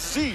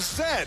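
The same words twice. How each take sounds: First: The letter is named with an 'ee' ending. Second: The letter is named with an 'ed' ending. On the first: This is how Americans say it. "And in the United States, it's called a Z" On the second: This is how Canadians say it. "In Canada, we call it a Z"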